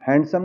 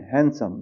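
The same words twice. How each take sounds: First: हैंडसम said "hand-sum"; d sounded. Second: हैंडसम said "han-sum"; silent d. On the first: Teacher showing the wrong reading, d sounded in हैंडसम. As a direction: voice the d in the middle of हैंडसम. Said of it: "हैंडसम नहीं हैंडसम". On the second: Teacher correcting learners, silent d in हैंडसम. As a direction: go from n straight to s in हैंडसम. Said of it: "यहाँ पे क्या है डी silent". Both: Shown as a demonstration.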